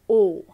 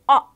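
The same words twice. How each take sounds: First: The vowel is long, as in yolk. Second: The vowel is short, as in orange. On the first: "But the long sound of O is" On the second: "the phonic sound or the soft sound or short sound of O is"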